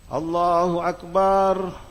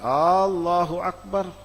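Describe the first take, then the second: First: The opening vowel is kept short. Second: The opening vowel is drawn out long. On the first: The speaker calls it right. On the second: The speaker calls it wrong.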